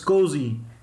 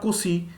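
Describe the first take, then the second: First: The middle consonant is a z sound. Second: The middle consonant is an s sound. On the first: The speaker calls it right. "it's cozy" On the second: The speaker calls it wrong. "here it's not cozy"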